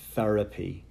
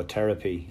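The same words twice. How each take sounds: First: Therapy with a soft th, as in thin; Therapy with a clear th at the start; careful th. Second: Therapy said Terapy with a hard t; Therapy as Tear-apy, back-home Wexford way. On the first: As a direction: sound out the th in Therapy. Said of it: "pronounce my T Hs". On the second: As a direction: drop the th in Therapy, Irish style. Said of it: "But back home I go". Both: Shown as a demonstration.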